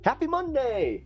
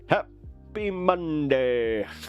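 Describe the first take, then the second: First: It is said in a normal voice. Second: It is said imitating Frosty the Snowman.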